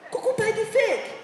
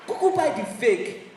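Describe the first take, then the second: First: Pitched way up with a different voice on Kuku buy the fake; high mocking repeat. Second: Said in the usual way. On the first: Shown as a demonstration. Comic mocks jersey buyers with a high repeat.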